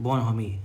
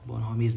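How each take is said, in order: First: The word ends without an s sound. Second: The word ends with an s sound. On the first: The speaker calls it right. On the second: The speaker calls it wrong.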